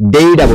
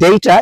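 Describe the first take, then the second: First: It is said in an American accent. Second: It is said in a British accent. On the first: "American অ্যাকসেন্টে বললে" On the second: "it's a British accent"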